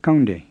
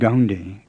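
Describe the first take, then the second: First: It starts with a plain, unaspirated K. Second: It starts with a voiced G sound. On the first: The speaker calls it right. "It's kaunde with a plain K" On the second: The speaker calls it wrong. "it's not gaunde with an English G"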